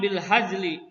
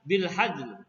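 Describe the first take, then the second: First: The phrase ends with a final vowel. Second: The phrase ends abruptly on the final consonant. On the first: This is the full original form. "Asal katanya bil hajli" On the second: This is how it is read when stopping. "jadi dibaca bil hajl"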